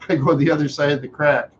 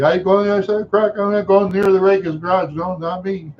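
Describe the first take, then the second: First: Said in the usual way. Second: High, fast insistent declaration; his younger self. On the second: Retold or imitated. Boy tells everybody he avoids the garage, high insistent voice. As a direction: rattle it off high, wanting no part of it. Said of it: "then I tell everybody".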